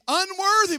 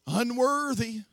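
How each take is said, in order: First: Unworthy cried higher and louder; emphatic Unworthy. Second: Said in the usual way. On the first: Shown as a demonstration. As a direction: build Unworthy to a cry. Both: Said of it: "Unworthy. Unworthy. Unworthy".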